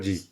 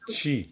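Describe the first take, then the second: First: The syllable begins with a j sound. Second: The syllable begins with a ch sound. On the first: The speaker calls it wrong. "Non, pas ji" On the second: The speaker calls it right. "Chi, chi, chi"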